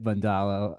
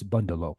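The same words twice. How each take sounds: First: The stress is not on the first syllable. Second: The stress is on the first syllable. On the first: It is an acceptable alternative form. "but we could say we, we could say it Bundalo" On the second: It follows the original language's naming pattern. "emphasis in Ser- in last names is always on the first syllable. So maybe it's Bundalo"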